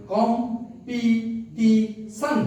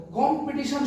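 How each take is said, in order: First: "competition" in four slow beats, কম, পি, টি, শন; split into syllables. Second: Said in the usual way. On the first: Shown as a demonstration. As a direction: pause after each syllable of "competition". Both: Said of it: "চারবারে".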